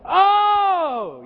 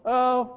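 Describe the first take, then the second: First: The oh is said with excited enthusiasm. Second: The oh is said flatly, without feeling.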